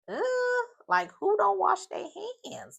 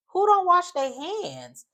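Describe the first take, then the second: First: High-pitched mock disbelief. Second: Slow, high and louder disbelief. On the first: Friends react to her not washing hands, imitated disbelief. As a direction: squeal the question in shock. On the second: Real, not acted. Host asks viewers in real outrage, slow high disbelief. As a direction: drag it out, scandalized. Host's own outrage at the story.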